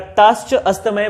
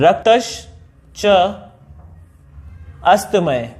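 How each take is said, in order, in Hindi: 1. यह वाक्यांश एक साथ, सहजता से जुड़कर बोला गया है। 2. यह वाक्यांश अलग-अलग टुकड़ों में बोला गया है। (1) "एक साथ बोलेंगे" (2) "टुकड़े करके यानी कि इसका संधि विच्छेद करके"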